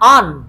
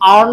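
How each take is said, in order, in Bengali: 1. R শব্দটি নীরব থাকে। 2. R শব্দটি উচ্চারণ করা হয়। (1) "আরটাকে হাইড করে ঠিক এভাবে বলবো আন" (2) "আর্ন হওয়ার কথা"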